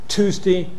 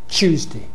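First: It starts with t and no y sound. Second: It starts with a merged ch sound. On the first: "American word Tuesday" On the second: "London word Tuesday"

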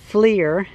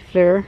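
First: The word sounds like 'fleer'. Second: The word does not sound like 'fleer'. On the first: The speaker calls it wrong. "people keep calling it FLIR, like F-L-E-E-R" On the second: The speaker calls it right. "It's made by FLIR"

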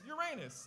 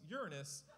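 First: The word does not begin like 'urine'. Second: The word begins like the word 'urine'. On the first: "The number two way to say it" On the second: "as in this bathroom smells Uranus"

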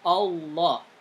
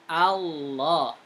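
First: The first vowel is rounded toward an 'o' sound. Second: The first vowel is an open 'a' sound. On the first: The speaker calls it wrong. "bukan Allah" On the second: The speaker calls it right. "tapi A, Allah"

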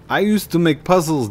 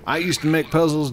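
First: It is said in a put-on Boston accent. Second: It is said in the speaker's ordinary accent.

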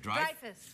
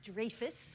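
First: The first syllable sounds like 'dry'. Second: The first syllable does not sound like 'dry'. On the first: The speaker calls it right. "like drive a car" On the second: The speaker calls it wrong. "It's not Dreyfus"

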